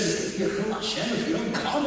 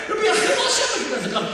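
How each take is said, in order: First: Wife mimicking the principal, fast and mildly mocking; laughing mimicry of the chilul Hashem line; mocking repeat. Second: High, loud, fast protest; indignant outburst. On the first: Wife mimicking the principal to her husband, mildly mocking. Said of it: "she makes it feel like". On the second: Retold or imitated. Assistant principal insisting to the wife, high and loud. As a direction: hammer the chilul Hashem accusation.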